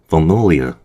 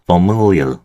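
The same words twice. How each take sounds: The two takes are said the same way.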